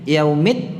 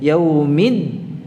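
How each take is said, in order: First: The final d is released without holding. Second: The final d is held with voice and breath. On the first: The speaker calls it wrong. "Yaumid tidak" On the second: The speaker calls it right. "ditahan suara dan nafasnya karena ini huruf dal"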